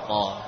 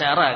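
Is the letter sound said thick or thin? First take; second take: thick; thin. First: The letter is said thick, with heavy quality. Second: The letter is said thin, without heavy quality. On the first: The speaker calls it right. "huruf ra juga ada kemiripan dalam sifat tebal ini" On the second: The speaker calls it wrong. "kita tidak membaca ra kan?"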